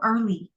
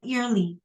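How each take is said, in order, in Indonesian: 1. Vokal pertama terdengar seperti er, bukan ear. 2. Vokal pertama terdengar seperti kata ear. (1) "itu early" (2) "Bukan early"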